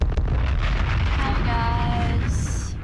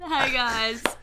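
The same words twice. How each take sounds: First: It is said with low energy. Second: It is said with more energy.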